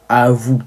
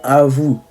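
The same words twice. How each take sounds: The two takes are said the same way.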